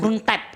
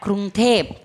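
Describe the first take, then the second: First: The second syllable's vowel is short. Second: The second syllable's vowel is drawn out longer. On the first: The speaker calls it wrong. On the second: The speaker calls it right. "Tep agak panjang dikit gitu"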